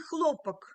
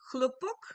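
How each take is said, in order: First: The stress is on the first syllable. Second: The stress is on the last syllable. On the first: It means cotton. "C'est coton avec l'accent euh, au premier syllabe" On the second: It means a bang or explosion. "avec l'accent en dernière syllabe"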